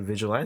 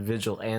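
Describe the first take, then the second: First: The word ends with an 'ahn-tay' sound. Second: The word is split into 'vigil' plus 'anti'. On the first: The speaker calls it right. "No, you say vigilante" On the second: The speaker calls it wrong. "you said vigil and then anti"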